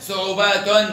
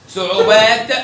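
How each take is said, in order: First: Slow صعوبات ending in -tun; damma tanween. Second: Slow, loud صعوبات ending on t; sukun ending. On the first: Teacher tests open taa, صعوبات ending in -tun. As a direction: add -un to صعوبات. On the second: Teacher tests open taa, صعوبات with bare t. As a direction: stop صعوبات on released t. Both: Shown as a demonstration. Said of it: "بالتاء المفتوحة".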